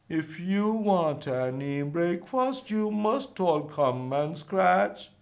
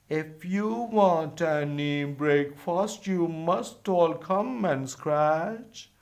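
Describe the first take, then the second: The two takes are said the same way.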